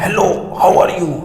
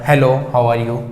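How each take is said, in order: First: Raised voice, drawn out slowly; louder slower demo. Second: Said in the usual way. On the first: Shown as a demonstration. Teacher showing students a louder voice, slow and raised. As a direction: call it out as if to someone far away. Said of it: "अगर मैं बोलूँगा ना". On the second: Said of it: "इस वक्त मैं इस आवाज़ में बोल रहा हूँ".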